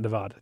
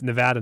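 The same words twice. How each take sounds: First: The middle vowel is a long 'ah'. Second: The middle vowel is a short 'a'. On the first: The speaker calls it wrong. "not Nevada. Too. There's no H in there" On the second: The speaker calls it right. "It's Nevada"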